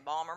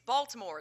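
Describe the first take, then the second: First: The name is clipped in a local Baltimore accent. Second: The name is said in full, standard form.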